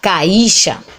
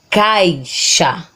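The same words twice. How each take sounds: First: The word is split into three syllables. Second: The word is said in two syllables. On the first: The speaker calls it wrong. "vai ter três sílabas" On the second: The speaker calls it right. "A gente fala caixa"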